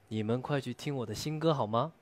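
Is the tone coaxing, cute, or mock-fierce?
cute. The line is said in a sweet, cute tone. "可爱"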